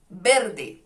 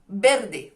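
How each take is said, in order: First: It is said in Spanish, with a b sound. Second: The same.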